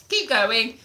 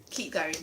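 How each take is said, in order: First: Said in the usual way. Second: Lower, softer "keep going"; low soft trailing "keep going"; quiet repeat. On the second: Real, not acted. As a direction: let "keep going" fade to a soft murmur. Repeats as encouragement.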